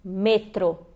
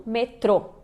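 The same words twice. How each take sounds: First: "metro" as ME-tro; stress on first syllable. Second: "metrô" as me-TRO; wrong final stress. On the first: Teacher gives the correct Spanish, "metro" stressed on ME. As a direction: lean on ME in "metro", light ending. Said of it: "a gente diz metro e não metrô". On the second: Teacher shows what not to say, "metrô" stressed on TRO. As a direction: put the weight on TRO in "metrô". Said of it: "e não metrô". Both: Shown as a demonstration.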